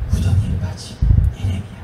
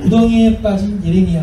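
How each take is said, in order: First: It is read in a sorrowful, heavy tone. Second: It is read in a bright, cheerful tone.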